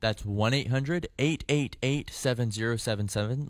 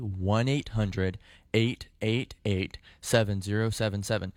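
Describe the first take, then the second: First: The number is said at normal speed. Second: The number is said slowly.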